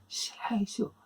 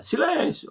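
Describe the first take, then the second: First: Soft, high-pitched call for silence; a gentle, high hush request; restrained silence call. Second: High-pitched yell demanding silence; sudden shouted order to hush. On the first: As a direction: say it softly, without shouting. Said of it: "ele não fala "silêncio". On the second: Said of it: "ah, e grita". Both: Shown as a demonstration.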